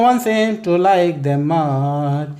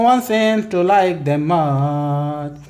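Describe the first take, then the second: Both takes have the same delivery.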